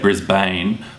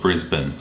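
First: The word is said as its spelling suggests. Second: The word is said in the local reduced way. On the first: This is the pronunciation newcomers would guess. The speaker calls it wrong. "from the way it's spelt, it's easy to assume that you say Brisbane" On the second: This is how residents say it. The speaker calls it right. "we actually call it Brisbane"

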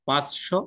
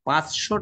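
First: The middle consonant is a clear ch sound. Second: The middle consonant sounds like a double sh. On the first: The speaker calls it wrong. "এমন কি কেউ বলতে শুনেছ পাঁচশো? না।" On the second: The speaker calls it right. "চ ও তালব্য ধ্বনি তো, ও নর্মালি তালব্য শতে পরিণত হয়ে যাচ্ছে"

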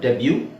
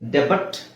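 First: It ends on a vowel with no t. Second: It ends with a clear t sound. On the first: The speaker calls it right. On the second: The speaker calls it wrong.

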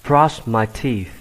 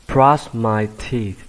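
Both takes have the same delivery.

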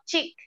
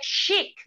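First: It begins with a 'ch' sound. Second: It begins with a 'sh' sound. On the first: The speaker calls it wrong. "not chic" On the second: The speaker calls it right. "We say chic"

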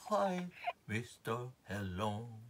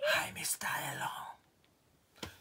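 First: It is called out in a soft voice. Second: It is whispered without full voice. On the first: "this time you call out still softer voice" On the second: "this time you whisper to them"

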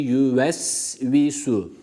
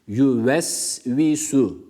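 Both takes have the same delivery.

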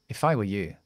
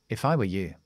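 No difference in how they are said.

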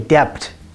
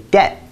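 First: The b sound is clearly pronounced. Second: The b sound is left silent. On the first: The speaker calls it wrong. "We don't say debt" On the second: The speaker calls it right. "we say debt"

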